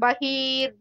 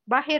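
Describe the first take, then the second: First: The vowel after h is drawn out long. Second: The vowel after h is kept short. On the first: The speaker calls it wrong. "It's not Bahir. No elongation for ha" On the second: The speaker calls it right. "That's it"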